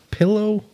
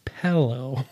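First: Pillow with a short "ih", PILL-oh; standard pillow. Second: Pello with an "eh", PELL-oh; pello variant. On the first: Quizzing friends on pronunciation, pillow as PILL-oh. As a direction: clear "ih" in the first syllable of pillow. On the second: Quizzing friends on pronunciation, pello as PELL-oh. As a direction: open the first vowel of pello to "eh". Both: Shown as a demonstration. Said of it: "You are a pello".

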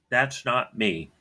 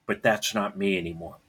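First: "That's not me" said slowly, each word weighted; slow it down and lean on "That's"; slow emphatic restatement. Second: Said in the usual way. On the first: Shown as a demonstration. Telling his father who he is now, slow and emphatic.

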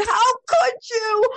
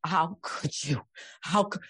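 First: Crying, much higher and louder; sobbing wail. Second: Said in the usual way. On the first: Retold or imitated. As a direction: break down crying the question at God. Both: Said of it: "walking through the house and just sobbing".

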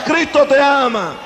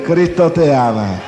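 First: "Cristo te ama" proclaimed high with a falling close; preached refrain. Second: "Cristo te ama" said lower and slowly, in syrupy mockery; mock churchy sweetness. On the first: Acted. Preacher proclaiming to the congregation, ringing. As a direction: call it out to the crowd. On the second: Gang member mocking a sweet offering collector, syrupy. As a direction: parody a sugary usher.

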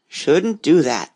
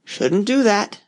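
First: Mormorato lento e basso; muttering frog. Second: Muttering frog. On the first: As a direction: lo ripete borbottando piano. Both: Acted. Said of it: "the frog muttered".

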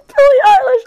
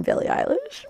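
First: Very high, loud fangirl scream; piercing squeal of excitement; freaking out. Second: Said in the usual way. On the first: Retold or imitated. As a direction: shriek the star's name in ecstasy. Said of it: "I was freaking out".

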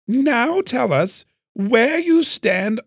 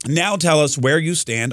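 First: High, slow, hammed-up British accent; badly faked high-pitched British accent. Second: Said in the usual way. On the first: Shown as a demonstration. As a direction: put on a horrible, drawn-out British voice. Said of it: "do a British accent, although maybe I should". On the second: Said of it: "I'm just gonna read it".

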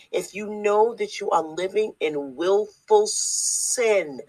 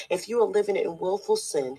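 First: Slow, weighty, each word pressed; repeated slower and louder. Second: Said in the usual way. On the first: Shown as a demonstration. Preacher repeating his warning to listeners, slow and emphatic. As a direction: drive it home, deliberately slower. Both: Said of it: "I'm gonna say it again".

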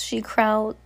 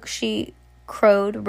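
First: Said in the usual way. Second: "crowed" stretched slow and relished; drawn-out crowed. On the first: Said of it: "the, she crowed". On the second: Shown as a demonstration. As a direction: savour "crowed", very slow and louder. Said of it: "relishing in the word".

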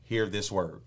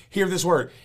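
First: Said in the usual way. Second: Preached louder and higher. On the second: Real, not acted. Preacher calling his congregation to listen. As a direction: lift it up, louder, into a call.

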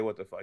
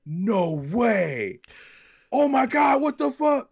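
First: Said in the usual way. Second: Imitating a young fan's high, loud squeal of disbelief; freaking out. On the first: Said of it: "he didn't say". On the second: Young fan spots a rare figure on the shelf, high excited squeal. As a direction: squeal it like you just found a rare toy. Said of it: "He's just freaking out".

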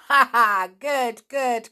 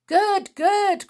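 First: Loud laughing praise; hearty laughing good good; cried with a laugh. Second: High, loud delighted praise; loud excited approval; cried. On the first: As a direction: laugh then cheer. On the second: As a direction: cheer him on. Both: A narrator's reading. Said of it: "cried Rossi".

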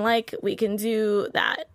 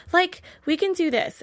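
First: Slow ditzy drawl. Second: A hint of a ditzy teen, stressing "Like"; lightly mock the airhead sisters; lightly voiced ditzy valley girl. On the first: Retold or imitated. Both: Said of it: "I counted how many times they said, like".

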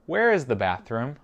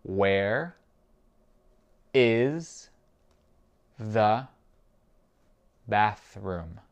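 First: Said in the usual way. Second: Very slow, a pause after each word; spaced-out language-drill question. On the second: Shown as a demonstration. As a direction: isolate every word for a learner to repeat. Teacher repeats it word by word.

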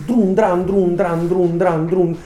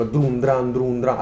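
First: Loud high rhythmic punch noises; mouth noise. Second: Mouth noise. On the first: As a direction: drum out the blows with your mouth, loud and high. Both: Shown as a demonstration. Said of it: "rumore con la bocca".

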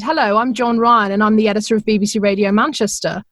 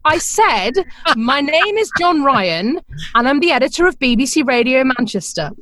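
First: Said in the usual way. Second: Weary repeat. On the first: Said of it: "this voice said". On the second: Retold or imitated. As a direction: spell it out again like talking to someone who didn't hear. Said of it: "I heard him sigh and go".

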